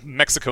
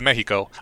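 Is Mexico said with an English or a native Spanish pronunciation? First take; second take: English; Spanish. First: The name is said with an English pronunciation. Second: The name is said with a Spanish pronunciation. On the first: This is the outsiders' form of the name. "Mexico instead of" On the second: This is the local form of the name. "instead of Mexico"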